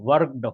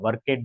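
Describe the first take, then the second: First: The ending is a plain d sound, one syllable. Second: The ending is an extra syllable, ed. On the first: The speaker calls it right. "वर्कड होगा" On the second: The speaker calls it wrong. "वर्केड नहीं"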